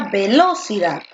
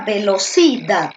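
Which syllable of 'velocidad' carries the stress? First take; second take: second; third. First: The stress is on the second syllable. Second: The stress is on the third syllable.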